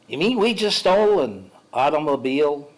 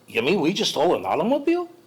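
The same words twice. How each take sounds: First: It is said flat, with the Jewishness removed. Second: It is said with a Jewish-sounding inflection.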